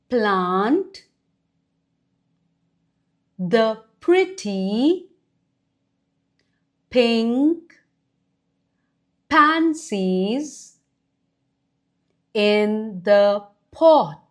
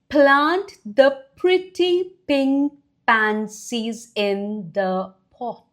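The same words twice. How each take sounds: First: Each word is said separately with pauses. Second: The words run together in one phrase.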